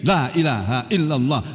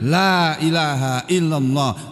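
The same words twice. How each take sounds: First: The words are rushed and slurred together. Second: Each word is clearly and fully pronounced. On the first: The speaker calls it wrong. "Akhirnya terus bunyi kalimatnya jadi salah. Jadi bunyinya begini" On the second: The speaker calls it right. "kalau misalnya mengucapkannya benar"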